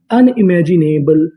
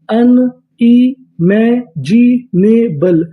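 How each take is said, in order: First: Said in the usual way. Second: Very slow syllables. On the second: Shown as a demonstration. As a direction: stretch unimaginable out very slowly, syllable by syllable, rising at the end. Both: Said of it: "पूरी meaning".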